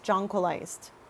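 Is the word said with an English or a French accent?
English. The word is said with an English accent. The speaker calls it right. "my English version"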